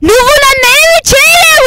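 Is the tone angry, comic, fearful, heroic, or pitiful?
angry. It is said in an angry tone.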